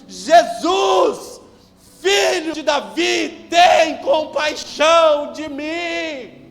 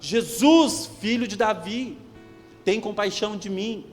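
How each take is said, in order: First: It is shouted at full, very loud volume. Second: It is shouted at a moderate loudness.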